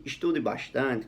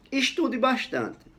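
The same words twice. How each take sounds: First: Slow, calm, unforced tone; calm advice. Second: High, drawn-out "Estude bastante"; example read out. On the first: Teacher advising a student of his, calm and slow. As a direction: advise gently, taking your time. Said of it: "com esse tom de voz calmo". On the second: Teacher reads out the example sentence, high and slow. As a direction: read "Estude bastante" slowly, well up in pitch. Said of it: "dependendo do meu tom de voz". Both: Shown as a demonstration.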